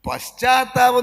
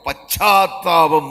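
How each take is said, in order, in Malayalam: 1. ഈ വാക്ക് ലഘുവായി ഉച്ചരിക്കുന്നു. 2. ഈ വാക്ക് വളരെ കനത്തിൽ ഉച്ചരിക്കുന്നു.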